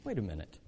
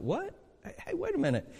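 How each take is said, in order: First: Low, soft, stunned wait a minute; stunned murmur. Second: High, startled double take. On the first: Reader realising what the verse means, hushed and low. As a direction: let it sink in, hushed and low. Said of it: "And you go". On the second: Reader doing a double take at the verse, startled and high. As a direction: catch yourself mid-read, startled and higher. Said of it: "a double take". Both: Retold or imitated.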